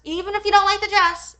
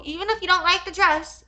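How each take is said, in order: First: Louder and higher, hammering the point; raised emphatic repeat. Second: Said in the usual way. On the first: Real, not acted. Ranting at the seller over the dress, louder repeat. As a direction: push harder the second time.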